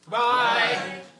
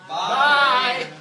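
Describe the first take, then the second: First: It is said casually, without much feeling. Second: It is said emphatically, with real feeling.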